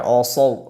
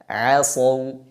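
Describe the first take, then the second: First: The ain sound is thick, like an o. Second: The ain sound is thin, like an a. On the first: The speaker calls it wrong. "jangan dibaca asaw, o" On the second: The speaker calls it right. "tapi dibaca tipis"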